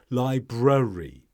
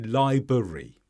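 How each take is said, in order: First: The first R sound is clearly said. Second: The first R sound is left out. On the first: The speaker calls it right. "You need to get the first R in" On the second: The speaker calls it wrong. "drop that first R and say library"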